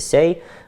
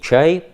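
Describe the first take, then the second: First: The word begins with an s sound. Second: The word begins with a ch sound. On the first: This is the southern or eastern dialect form. "на говорах южного или восточного диалекта «сяй»" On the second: This is the Russian form. "по-русски «чай»"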